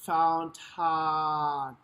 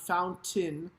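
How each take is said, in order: First: The first vowel is tall and open, like ah. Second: The first vowel is narrow and spread. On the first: The speaker calls it right. "It's a tall vowel" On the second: The speaker calls it wrong. "not fountain"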